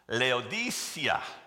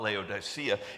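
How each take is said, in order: First: The name is said in a foreign-sounding way. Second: The name is said in the familiar English way. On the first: This is the original, authentic way of saying it. "the real pronunciation is Laodicea" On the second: This is the customary local way of saying it. "We'll call it Laodicea"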